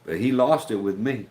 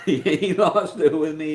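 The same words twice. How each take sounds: First: Said in the usual way. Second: He lost it with me, slowed and laughed through; laughing repeat. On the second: Real, not acted. Telling viewers about his angry lieutenant, laughing. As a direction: drag it out with a chuckle.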